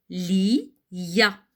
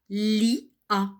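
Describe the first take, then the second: First: The i is repeated as a y before a. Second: The i and a are split without a y sound. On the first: The speaker calls it right. "je dois dire li. Je reprends le I" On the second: The speaker calls it wrong. "Et je ne dis pas li, a"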